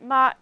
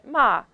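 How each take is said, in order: First: The syllable has a high level pitch. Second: The syllable has a falling pitch. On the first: It means mother. "if you put a high tone on it" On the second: It means to swear or curse. "if you put a falling tone on it"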